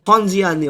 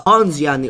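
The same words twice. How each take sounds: First: The first syllable sounds like the letters pon. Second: The first syllable sounds like the word pawn. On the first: The speaker calls it right. "but P O N" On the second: The speaker calls it wrong. "Not the Ponziani opening like the pawn in chess"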